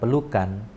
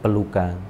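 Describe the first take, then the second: First: The word is pronounced in standard Indonesian. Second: The word is pronounced with a regional slip. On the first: The speaker calls it right. "alih-alih mengatakan pelukan" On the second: The speaker calls it wrong. "saya justru menyebut pelukan"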